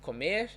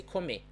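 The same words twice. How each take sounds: First: COMER with the final R sounded; R pronounced at the end. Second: COMER without its R, ending on a stressed "meh"; final R dropped. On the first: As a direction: say "comer" keeping its last R. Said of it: "Instead of comer". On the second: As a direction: say "comer" as "comê". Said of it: "I would say comer". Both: Shown as a demonstration.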